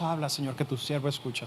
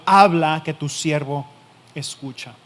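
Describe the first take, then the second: First: Habla, Señor said softly and low in volume; soft, quiet prayer. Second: Habla called out loud, then que tu siervo escucha falling away; loud declaration. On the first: Preacher asking the congregation, in a soft quiet voice. Preacher asks why we don't say it. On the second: Preacher voicing Samuel's bold answer, loud then fading. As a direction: proclaim Habla with force, then let the rest drop. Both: Acted.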